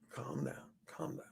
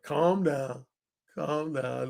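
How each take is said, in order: First: Breathy whisper hushing the crowd; whispered calm down. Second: Low, soft hushing; calming the crowd. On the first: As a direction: hush them in a whisper. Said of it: "going like this to the crowd". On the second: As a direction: settle them down gently. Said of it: "I just went like this". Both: Retold or imitated.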